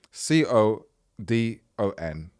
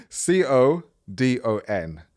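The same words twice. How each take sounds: First: Slow spelling. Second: Laughing. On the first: Shown as a demonstration. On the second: Real, not acted. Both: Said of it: "why did I say it like that".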